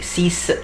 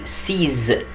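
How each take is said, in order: First: The word ends with an s sound. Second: The word ends with a z sound. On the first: The speaker calls it wrong. "ما اقولش سيس" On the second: The speaker calls it right. "لا بقول سيز"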